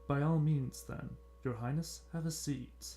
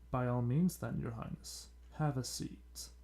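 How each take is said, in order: First: It is read in a plain everyday voice. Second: It is read in a put-on sinister villain voice.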